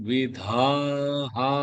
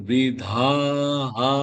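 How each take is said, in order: Both takes have the same delivery.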